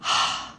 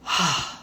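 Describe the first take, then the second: First: Tired sigh at the end of a long day. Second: Long audible letting-go sigh; big sigh. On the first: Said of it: "Like at the end of the day". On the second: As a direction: sigh it all out like a release. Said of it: "like a big sigh". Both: Shown as a demonstration.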